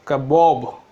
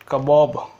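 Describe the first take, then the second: The two takes are said the same way.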